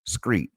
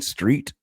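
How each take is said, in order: First: The word begins with an 'skr' sound. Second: The word begins with an 'str' sound. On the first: "they would say screet" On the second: "instead of saying street"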